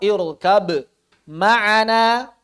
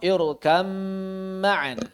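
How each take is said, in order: First: The b is pronounced clearly before the m. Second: The b merges fully into the following m. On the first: "Yang pertama adalah idhar" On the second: "Yang kedua adalah idgham"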